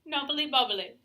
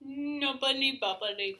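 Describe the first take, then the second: First: Said in the usual way. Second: Drawn out slowly, relishing each syllable; slow savouring. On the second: Shown as a demonstration. Repeating the phrase slowly because it is fun to say. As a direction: roll knobbly bobbly slowly round the mouth. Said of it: "really fun to say".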